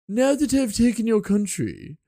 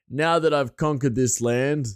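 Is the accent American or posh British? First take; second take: posh British; American. First: It is said in a posh British accent. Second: It is said in an American accent.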